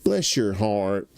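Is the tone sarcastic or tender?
sarcastic. It is said in a cold, sarcastic tone. The speaker is insulting the listener. "They say it like that. That's a fuck you"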